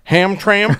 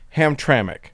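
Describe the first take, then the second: First: No vowel is sounded in the last syllable. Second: A vowel is sounded in the last syllable. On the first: "Which I pronounce and probably will continue to pronounce" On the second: "pronounced as if there is a vowel in the last syllable, as in Hamtramck, With emphasis on the middle syllable"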